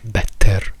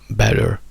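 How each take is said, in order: First: The ending has a full, unreduced vowel. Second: The ending is a schwa followed by an R. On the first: The speaker calls it wrong. "ma non è better" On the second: The speaker calls it right. "better in americano"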